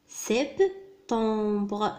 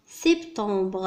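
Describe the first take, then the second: First: "سبتمبر" slowly as French sep, tembre; syllable by syllable. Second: Said in the usual way. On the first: Shown as a demonstration. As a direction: break "سبتمبر" in two with a clear gap. Teacher sounds out incomplete word.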